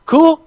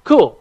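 First: Cool with a sharp high rise, asking the room; questioning cool. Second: Cool with a falling tune, closing the matter; settled cool. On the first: Teacher checking the class is ready, rising question. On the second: Teacher confirming the class can start, settled fall. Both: Real, not acted.

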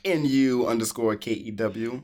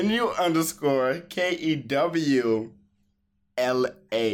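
First: Spelled out with a cool rise; trying to sound cool. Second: Slow, deliberately cool spelling; trying to sound cool. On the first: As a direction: play it cool while spelling. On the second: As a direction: spell it out like you're too cool. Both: Acted. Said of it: "you try to be cool".

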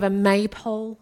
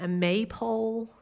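First: Said in the usual way. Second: Maypole in a slow American accent. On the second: Shown as a demonstration. Preacher showing the American word, American accent. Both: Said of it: "gonna say that in this American accent".

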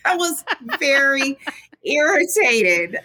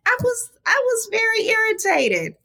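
First: Laughing. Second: Said in the usual way. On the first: Real, not acted. Repeats it, laughing.

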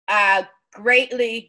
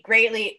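First: Greatly stretched out slowly and leaned on; stress on greatly. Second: Said in the usual way. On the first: Real, not acted. Guest praising Southern stories, slow stressed greatly. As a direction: draw out greatly for emphasis.

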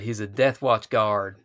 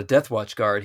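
First: "Death Watch guard" slow with Texan vowels; Texan drawl. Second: Said in the usual way. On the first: Shown as a demonstration. Co-host renames the Seanchan guard, slow Texan drawl. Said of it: "the Seanchan are Texas". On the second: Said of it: "this guy's not a Death Watch guard".

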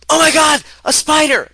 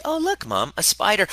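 First: Shrieking high and loud in terror; panicked scream. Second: Put-on high, light kid's voice, unbothered; curious child voice. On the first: Retold or imitated. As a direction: scream it like you saw a spider. Parent panics at child's spider. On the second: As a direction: innocent kid pointing something out. Child calmly points out spider.

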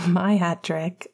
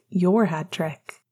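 First: My said slow with weight on My; stress on My. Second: Your said slow with weight on Your; stress on Your. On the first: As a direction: lean on My slowly. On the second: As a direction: lean on Your slowly. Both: Shown as a demonstration. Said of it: "stress on My versus Your".

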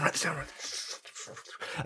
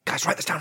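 First: Hushed, softer repeat of write this down; whispered aside. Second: Said in the usual way. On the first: Real, not acted.

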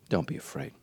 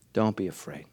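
First: Soft, low whisper; hushed reassurance. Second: Said in the usual way. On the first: Acted. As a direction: breathe the comfort. Repeated, whispered then plain.

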